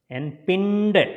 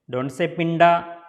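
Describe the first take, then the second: First: The word ends on the consonant d. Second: The word ends with an added a vowel. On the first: The speaker calls it right. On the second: The speaker calls it wrong.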